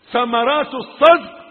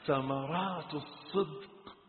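First: High, very loud refrain; emphatic proclamation. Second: Soft, slow repetition; subdued refrain. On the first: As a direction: throw the phrase out forcefully. Repeated phrase bursts loud. (إعلان جهوري مؤكد) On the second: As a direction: let the phrase out quietly and drawn out. Same phrase falls quiet. (تكرار هادئ ممدود) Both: Real, not acted.

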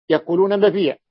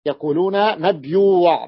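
First: مبيع said short as "mabīʿ", long ī and no w; teacher contrasting dialect forms; mabīʿ without the w. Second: مبيوع said in full as "mabyūʿ", y then long ū, slowly; teacher showing the Tamimi form. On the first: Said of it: "على غير لغة الحجاز مبيع". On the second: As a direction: give مبيوع its y and long ū, drawn out. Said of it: "لغة بني تميم يقولون مبيوع". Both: Shown as a demonstration.

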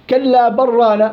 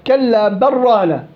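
First: كلا بل رانا with the lam run into the ra; merged without pause. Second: كلا بل رانا with a brief stop on the lam of بل; with the pause. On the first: Teacher shows the wrong merged reading without sakt. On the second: Teacher demonstrates the sakt in كلا بل ران. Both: Shown as a demonstration. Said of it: "لو ما في سكت بدي أضغم".

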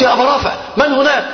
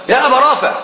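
First: High, altered voice pretending to help; disguised voice. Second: High called name in the dark; calling out loud. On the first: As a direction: call out as if a rescuer. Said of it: "فغيرت صوتي فقلت". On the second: Retold or imitated. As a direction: call his name loudly, retold. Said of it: "بأعلى صوتي".

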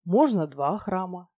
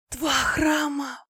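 First: Slow, measured offer near usual pitch; bargaining. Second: High, very slow, overwhelmed murmur; awed babbling. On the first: Dragon haggling with the goddess over temples, slow bargaining tone. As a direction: make the offer coolly and unhurriedly. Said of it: "я стал торговаться". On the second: Goddess offered a second temple, awed high babble. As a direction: stretch it out in dazed delight. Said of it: "пролепетала Аня". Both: A narrator's reading.

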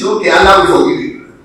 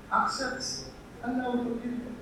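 First: Loud, insistent promise; forceful preaching, voice lifted; raised voice. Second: Very soft, high, coaxing voice; hushed, gentle persuasion; gentle appeal. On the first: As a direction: call the assurance out forcefully. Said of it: "I raised my voice". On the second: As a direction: plead softly, as if in confidence. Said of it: "I changed style. I raised my voice. I spoke jeje". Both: Acted.

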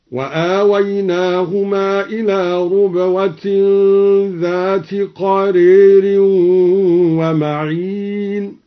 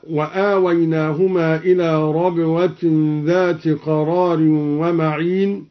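First: Slow recitation, ربوة said "rubwah" with u; recited with damma. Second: Said in the usual way. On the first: Shown as a demonstration. Teacher demonstrates al-Duri's reading, slowly chanting ربوة as "rubwah". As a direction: chant it drawn out, ربوة as "rubwah", قرير with long e. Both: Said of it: "قرأ الدوري بضم الراء ربوة".

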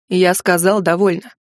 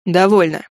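First: Stern interruption. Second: Sharp stop. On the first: A narrator's reading. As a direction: cut her off hard. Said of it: "Вновь прервал её Лайнер". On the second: Acted. Liner cuts her off.

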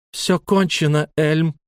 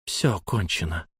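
First: High, forceful declaration; woman's angry cry. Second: Low, soft, grave statement; hushed, controlled resolve; quiet finality. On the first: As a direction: cry it out to stop him, pitch raised. Лайла криком останавливает драку. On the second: Лайла повторяет ошарашенному Эльму. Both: A narrator's reading.

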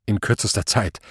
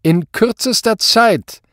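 First: Submissive promise. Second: High, loud, slow; commanding demand. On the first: Cowed commissioner promises his superior, submissive. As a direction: repeat the order back meekly. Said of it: "versprach er". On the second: Superior sets the commissioner a deadline, commanding. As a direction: spell out the deadline forcefully. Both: A narrator's reading.

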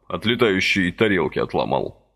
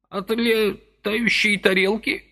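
First: Said in the usual way. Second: High, slow, rising disbelief on летающей; old man repeating летающей in outraged doubt; indignant echo. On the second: A narrator's reading. Old man echoes Vasily's words, high indignant question. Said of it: "С каким-то даже негодованием переспросил".

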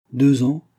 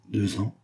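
First: Higher, louder confident repetition; unruffled reaffirmation. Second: Incredulous interruption. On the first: Vera carries on despite Marianne's doubt, unruffled reaffirmation. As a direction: say it back firmly, undeterred. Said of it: "reprit Vera sans se déconcerter". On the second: Marianne interrupts Vera's romantic tale, incredulous interruption. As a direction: cut in with mild, unimpressed doubt. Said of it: "interrompit Marianne en levant les yeux au ciel". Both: A narrator's reading.

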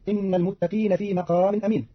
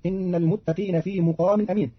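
First: Said in the usual way. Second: مقام said "muqam", u in first syllable; mim with damma. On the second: Shown as a demonstration. Teacher showing Qalun's reading, مقام said "muqam". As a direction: say مقام as "muqamin", not "maqamin". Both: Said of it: "بضم الميم".

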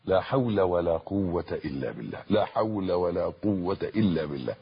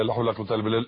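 First: Each word of لا حول ولا قوة إلا بالله stretched out clearly; calm deliberate recitation; slow and full. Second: Gabbled quickly, syllables swallowed; hurried careless recitation; rushed. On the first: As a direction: savour every syllable, unhurried. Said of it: "بالطريقة اللي أنا بقولها دي". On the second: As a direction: rattle off لا حول ولا قوة إلا بالله carelessly fast. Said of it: "مش لا حول ولا قوة إلا بالله". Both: Shown as a demonstration.

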